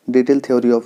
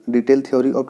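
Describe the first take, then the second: No difference in how they are said.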